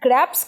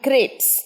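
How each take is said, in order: First: The vowel sounds like the 'a' in cat. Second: The vowel sounds like the 'a' in say. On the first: The speaker calls it wrong. "গ্র্যাপস কিন্তু নয় মোহনা" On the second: The speaker calls it right. "এটা গ্রেপস"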